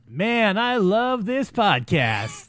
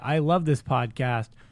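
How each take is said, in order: First: It is said with real, heartfelt feeling. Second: It is said flatly, without real feeling.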